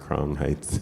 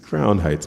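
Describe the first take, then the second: First: It is said with a slight Caribbean accent. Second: It is said in a plain, unaccented way.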